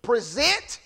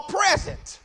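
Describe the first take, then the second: First: "Present" as pre-ZENT, rising at the end; stress on second syllable. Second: "present" as PREZ-ent, falling away; stress on first syllable. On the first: Preacher repeating the verse's verb, "Present" stressed pre-ZENT. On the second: Preacher setting the gift word beside it, "present" stressed PREZ-ent. Repeats noun against verb. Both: Shown as a demonstration.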